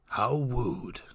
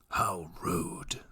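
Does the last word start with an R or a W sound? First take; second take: W; R. First: The last word starts with a W sound. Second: The last word starts with an R sound. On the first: "mispronounce it, like say wooed instead of rude" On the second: "can you say, how rude?"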